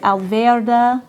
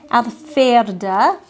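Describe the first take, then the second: First: The middle consonant is a voiced v sound. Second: The middle consonant is a voiceless f sound.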